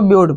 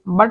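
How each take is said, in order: First: The word is said with a 'yoo' vowel. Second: The word is said with a short 'u' vowel. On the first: The speaker calls it right. "इसको ब्यूट पढ़ेंगे" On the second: The speaker calls it wrong. "ब्यूट को बट नहीं पढ़ देना"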